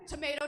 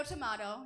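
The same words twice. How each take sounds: First: "tomato" said tuh-MAY-toh. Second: "tomato" said tuh-MAH-toh. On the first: Comic shrugging off differences, "tomato" as tuh-MAY-toh. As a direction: give "tomato" a long A, as in "may". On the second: Comic shrugging off differences, "tomato" as tuh-MAH-toh. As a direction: give "tomato" a broad A, as in "father". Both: Shown as a demonstration. Tomato tomato saying, two pronunciations.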